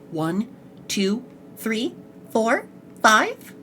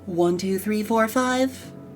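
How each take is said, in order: First: There is a stop between each number. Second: The numbers flow together without stopping.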